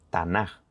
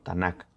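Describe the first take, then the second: First: The word ends in a throaty j sound. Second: The word ends in a hard k sound. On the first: The speaker calls it right. "se pronuncia con J" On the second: The speaker calls it wrong. "y no con K"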